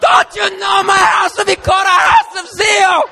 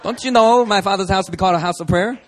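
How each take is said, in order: First: It is shouted in a furious, screaming tone. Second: It is said in a mild, calm tone.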